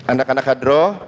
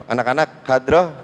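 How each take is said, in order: Both takes have the same delivery.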